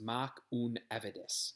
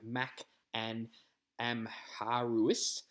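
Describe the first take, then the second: First: It is said with the Gaelic sounds. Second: It is read letter by letter, as spelled. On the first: The speaker calls it right. "it's pronounced" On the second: The speaker calls it wrong. "it kind of looks like"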